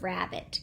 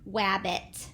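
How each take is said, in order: First: The word begins with an R sound. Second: The word begins with a W sound. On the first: The speaker calls it right. "instead of rabbit" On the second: The speaker calls it wrong. "they're saying w instead of r"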